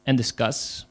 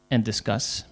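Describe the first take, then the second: No difference in how they are said.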